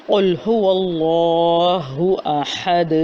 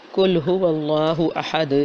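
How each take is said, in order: First: Slow, chanted قل هو اللہ احد with a heavy ق; Quranic recitation. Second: قل هو اللہ احد with the ق softened almost to ک; loose wrong reading. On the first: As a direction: recite it in tajweed style, drawn out. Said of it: "سورہ اخلاص کی پہلی آیت ہے". (قل هو اللہ احد تجوید کے ساتھ تلاوت) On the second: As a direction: read قل slackly, light k sound. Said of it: "ڈھیلا ڈھالا سا". (ڈھیلا ڈھالا قل، قاف باریک) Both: Shown as a demonstration.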